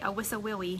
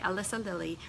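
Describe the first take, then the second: First: The L sounds are replaced with W sounds. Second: The L sounds are pronounced clearly as L.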